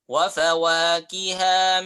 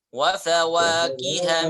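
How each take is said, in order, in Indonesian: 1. Vokal ha terakhir dibaca panjang. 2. Vokal ha terakhir dibaca pendek. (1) "Perhatikan haknya tidak panjang. Jadi jangan dibaca" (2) "Haknya pendek"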